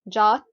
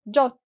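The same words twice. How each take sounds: First: "jot" with an unrounded "ah"; American open O. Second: "jot" with a short rounded o; British short O. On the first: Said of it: "in the American accent". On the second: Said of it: "in the British English". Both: Shown as a demonstration.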